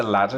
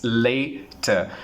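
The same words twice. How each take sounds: First: Latter with short a, LAT-er; teacher shows the later mistake; wrong way. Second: Later slowly with long a, LAY-ter; teacher models later slowly; correct way. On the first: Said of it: "but they say". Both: Shown as a demonstration.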